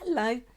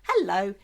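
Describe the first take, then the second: First: It is said weakly, with little energy. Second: It is said strongly, with more energy.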